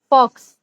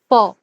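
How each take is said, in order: First: The word ends with a ks sound. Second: The word ends with a plain vowel. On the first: The speaker calls it wrong. "Mostly people pronounce it as fox" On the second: The speaker calls it right. "But the correct pronunciation is for"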